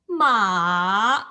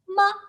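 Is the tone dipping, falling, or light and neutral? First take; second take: dipping; neutral. First: The pitch dips and then turns up. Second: The syllable is short, light and unstressed. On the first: It means horse. "make a turn" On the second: It marks a question. "the light tone when you que- like question mark"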